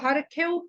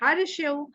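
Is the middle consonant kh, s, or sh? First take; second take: kh; sh. First: The middle consonant is a kh sound. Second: The middle consonant is an sh sound. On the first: The speaker calls it right. "अगर हरखेव बरखेव पढ़ सकते हैं तो बहुत अच्छा है" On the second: The speaker calls it wrong. "हमें हरशेव और बरशेव नहीं पढ़ना चाहिए"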